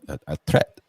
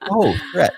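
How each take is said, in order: First: "threat" said as "tret", imitating a fake Russian accent; hesitant repeat, then "threat" with a hard T; mock-accented "threat"; imitated accented threat. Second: Put-on "threat" said clearly with a TH, no accent; high, loud, laughing "threat" as if it finally clicks; imitated clear pronunciation. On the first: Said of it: "And she's like". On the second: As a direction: pronounce "threat" perfectly, amused. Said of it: "threat part was just perfectly pronounced without any accent".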